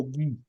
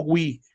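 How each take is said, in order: First: "gui" said as ghee, without any w; hard G, no glide. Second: "gui" said as gwee; wrong, with a W glide. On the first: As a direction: keep the u silent in "gui". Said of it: "suena como gui". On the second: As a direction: slip a w after the g in "gui". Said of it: "Ojo, no como gui". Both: Shown as a demonstration.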